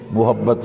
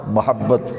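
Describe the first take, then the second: First: First syllable of محبت with a short u; short u (pesh) on the meem of محبت; common mispronunciation. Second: First syllable of محبت with a short a; short a (zabar) on the meem of محبت; correct vowel. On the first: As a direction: say محبت as "muhabbat". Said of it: "غلط بولتے ہیں". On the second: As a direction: say محبت as "mahabbat". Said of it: "یہ میم پہ زبر ہے". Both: Shown as a demonstration.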